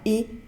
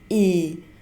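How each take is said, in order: First: The vowel is held briefly. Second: The vowel is held for longer. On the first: "ada yang pendek" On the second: "ada yang panjang"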